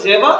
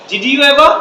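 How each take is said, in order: First: "Java", did you ever fused into jeva; native contraction. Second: "Did you ever" in full, higher and louder; learner pronunciation. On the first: Teacher shows what natives say, fused "Java". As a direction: shrink it to "Java". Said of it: "ওরা বলে". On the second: Teacher contrasts it with native speech, full "Did you ever". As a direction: give "Did you ever" all its words. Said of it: "ওরা বলে Java". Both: Shown as a demonstration.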